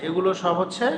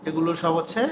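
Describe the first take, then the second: No difference in how they are said.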